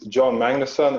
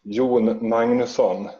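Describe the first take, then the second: First: The name is pronounced with English sounds. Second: The name is pronounced with Swedish sounds. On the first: "in English it's" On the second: "in Swedish it's"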